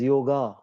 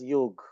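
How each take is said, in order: First: It is said the South Indian way. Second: It is said the North Indian way. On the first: "South Indians and uh, Westerners pronounce it as yoga. That's also wrong" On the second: "North Indians pronounce it as Yog. That's wrong"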